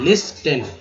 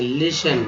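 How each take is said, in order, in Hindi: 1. t की आवाज़ साफ़ बोली जाती है। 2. t की आवाज़ साइलेंट रहती है। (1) "लिस्टन गलत है" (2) "यहाँ जो टी है ये साइलेंट कर दिया गया है"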